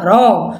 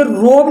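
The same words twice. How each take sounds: First: रॉब with open "aw", pitched down; short open O. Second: रॉब mispronounced as "robe"; wrong long O. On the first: Teacher correcting the reading, रॉब with open "aw". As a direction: say रॉब as "rawb". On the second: Teacher showing what not to read, रॉब with long "oh". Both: Shown as a demonstration. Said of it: "अब इसे रॉब नहीं बनना".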